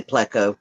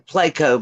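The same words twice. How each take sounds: First: Pleco as PLEK-o with a short e; new way. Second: Pleco as PLAY-ko; old way. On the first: Guest showing her new PLEK-o pronunciation. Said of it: "but now I say Pleco". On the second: Guest showing her old PLAY-ko pronunciation. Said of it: "I used to say Ple". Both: Shown as a demonstration.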